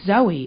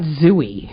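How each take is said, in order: First: The first syllable sounds like 'zoh'. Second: The first syllable sounds like 'zoo'. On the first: The speaker calls it right. "it's Zoe" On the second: The speaker calls it wrong. "It's not Zooey"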